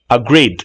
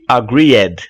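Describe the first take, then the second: First: The ending is only a faint, light consonant. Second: The ending is said strongly as an extra syllable. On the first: The speaker calls it right. "Tem apenas um som de t ... como se fosse um D mudo" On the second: The speaker calls it wrong. "Nós não pronunciamos o ed no final muito forte ... agreed está errado"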